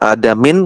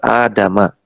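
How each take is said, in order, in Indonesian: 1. Kata ini berakhir dengan bunyi 'in'. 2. Kata ini berakhir dengan bunyi 'a' pendek. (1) "bukan dibaca adamin kemarin, salah ya" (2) "yang benar adama"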